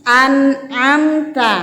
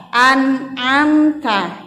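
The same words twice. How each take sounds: The two takes are said the same way.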